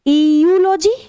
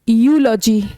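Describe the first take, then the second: First: The word begins with an 'ee' sound. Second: The word begins with a 'yoo' sound. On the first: The speaker calls it wrong. "क्या ये ईयूलॉजी लिखा है?" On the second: The speaker calls it right. "इसमें ई silent"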